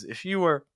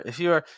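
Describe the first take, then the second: First: The W is clearly pronounced with rounded lips. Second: The W is dropped, sounding like 'you're'. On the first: The speaker calls it right. "a little bit more you ooh sound on you" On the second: The speaker calls it wrong. "the W just got dropped"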